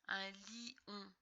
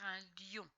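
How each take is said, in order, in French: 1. Le i est une voyelle pleine, une syllabe à part. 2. Le i glisse vers la voyelle comme un y. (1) "on va pas dire un lion" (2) "on va bien dire un lion"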